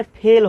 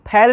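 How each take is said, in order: First: फेल with a close "ay" vowel, "phayl"; corrected long e. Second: फेल with an open "ae", like "phael"; open-vowel "phael" for फेल, as the mistake; rejected open vowel. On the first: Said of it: "क्या होता है?". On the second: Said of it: "अक्सर फेल नहीं होता है". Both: Shown as a demonstration.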